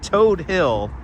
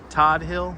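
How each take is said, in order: First: The first word has a long 'oh' vowel. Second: The first word has a short 'o' vowel.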